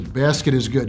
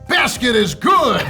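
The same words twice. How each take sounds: First: It is said in a calm, ordinary voice. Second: It is said in a loud, energetic voice. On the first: The speaker calls it wrong. "don't say it like that" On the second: The speaker calls it right. "Say it how you say it on two K"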